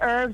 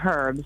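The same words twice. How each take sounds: First: The word starts without an h sound. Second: The word starts with an h sound. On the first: This is the speaker's own usual pronunciation. The speaker calls it right. "I say herbs" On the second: This sounds like a man's name. The speaker calls it wrong. "I don't say herbs, because that's a guy named Herb"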